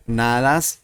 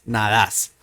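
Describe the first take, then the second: First: "Nadas" with stress on NA; stress on first syllable. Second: "nadas" with stress on DAS; stress on last syllable. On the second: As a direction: push the accent to the end of "nadas", na-DAS. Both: Shown as a demonstration. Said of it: "The accent changes".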